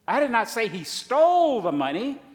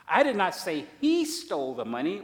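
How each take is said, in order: First: The stress is on the word stole. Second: The stress is on the word he.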